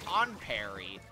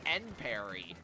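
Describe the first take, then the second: First: The first syllable sounds like 'on'. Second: The first syllable sounds like 'end'. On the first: This follows the phrase it comes from. The speaker calls it wrong. "not on parry, like the phrase on guard" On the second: This is the official pronunciation of the brand. The speaker calls it right. "the official pronunciation of that gear brand is end parry"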